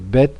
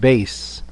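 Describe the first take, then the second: First: It is said in Sephardi style, ending in t. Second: It is said in the other style, ending in s.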